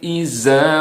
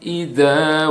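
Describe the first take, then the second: First: The middle consonant is a z sound. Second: The middle consonant is a d-like sound. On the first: The speaker calls it wrong. "kita sering mendengar dibaca ... salah" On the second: The speaker calls it right. "Yang benar adalah"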